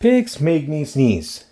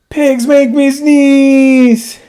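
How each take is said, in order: First: Said in the usual way. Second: Dramatic wail. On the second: Acted. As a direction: wail it as a comic tragedy. Gerald wails to Doctor Cat.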